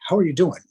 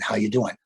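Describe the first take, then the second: First: It is asked with sincere, genuine interest. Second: It is tossed off as a casual remark.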